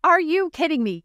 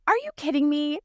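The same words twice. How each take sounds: First: Stronger exasperated disbelief. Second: Higher, incredulous first try; exasperated disbelief. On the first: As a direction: push the disbelief further on the second try. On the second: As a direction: ask it in disbelief at the email. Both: Retold or imitated. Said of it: "when you're just like".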